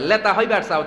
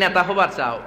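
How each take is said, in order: First: The first word begins with an l sound. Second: The first word begins with an n sound.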